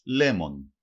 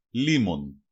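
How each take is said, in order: First: Λέμον with "e" in the first syllable; "λέμον", stressed open "le" at the start; dialect variant pronunciation. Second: Said in the usual way. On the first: Shown as a demonstration. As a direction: say λέμον as LEH-mon, not LEE-mon. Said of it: "Προφέρεται και ως". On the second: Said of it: "Προφέρεται και ως λέμον".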